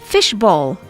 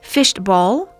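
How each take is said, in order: First: There is no t sound in the middle. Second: A t sound is inserted in the middle. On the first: The speaker calls it right. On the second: The speaker calls it wrong.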